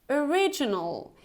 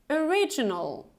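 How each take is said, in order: No difference in how they are said.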